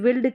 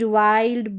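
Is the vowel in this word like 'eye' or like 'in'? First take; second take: in; eye. First: The vowel sounds like 'in'. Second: The vowel sounds like 'eye'. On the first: The speaker calls it wrong. "ऐसे नहीं पढ़ते हैं" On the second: The speaker calls it right. "आई का sound आई करके होता है"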